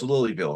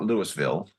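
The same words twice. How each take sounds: First: The name is said the way locals say it. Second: The name is said the way outsiders say it. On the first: The speaker calls it right. "It's Louisville, right?" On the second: The speaker calls it wrong. "It's not Louisville"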